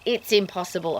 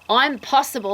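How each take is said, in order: First: It is said as the usual word 'impossible'. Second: The first syllable is set apart as 'I'm'.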